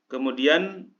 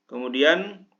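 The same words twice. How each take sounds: Both takes have the same delivery.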